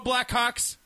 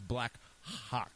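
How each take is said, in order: First: The word is said quickly and run together. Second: The word is said slowly with every sound clear. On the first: It can sound like a rude word. The speaker calls it wrong. "if you say it really fast" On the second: It clearly names the team. The speaker calls it right. "No, it's Blackhawks. So therefore, you have to pronounce it"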